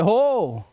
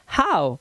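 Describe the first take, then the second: First: The vowel is a plain 'oh' sound. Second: The vowel is an 'ow' glide. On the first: The speaker calls it wrong. "हो नहीं" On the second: The speaker calls it right. "ओ डब्ल्यू को आउ से पढ़ा जाता है"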